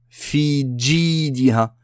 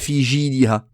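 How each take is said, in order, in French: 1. Le j est un son 'dj' dur. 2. Le j est un son 'zh' doux.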